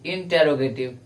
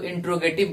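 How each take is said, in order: First: The syllable after 'in' is fully pronounced. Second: The syllable after 'in' is dropped. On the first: The speaker calls it right. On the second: The speaker calls it wrong.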